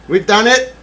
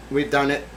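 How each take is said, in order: First: Triumphant. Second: Said in the usual way. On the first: Real, not acted. Loud take.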